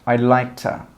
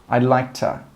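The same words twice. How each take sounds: First: I would is joined into one quick syllable. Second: I would is joined into one quick syllable.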